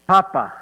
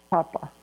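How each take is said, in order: First: Said in the usual way. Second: Much softer, tender repeat of "Papa"; soft tender echo. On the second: Acted. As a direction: breathe "Papa" again softly, fondly.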